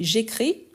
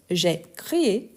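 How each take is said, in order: First: "j'écris" without the final accented é; present-tense form. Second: "j'ai crié" with a final accented é; accented past form. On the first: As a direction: say "j'écris" as the present, ending after one vowel. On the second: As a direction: sound the extra é ending "j'ai crié". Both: Shown as a demonstration. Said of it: "n'oublie jamais l'accent".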